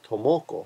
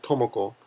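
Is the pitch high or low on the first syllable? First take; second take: low; high. First: The pitch is not high on the first syllable. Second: The pitch is high on the first syllable. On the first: The speaker calls it wrong. "a lot of foreigners will say Tomoko" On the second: The speaker calls it right. "you want to go up a little bit higher on the first syllable"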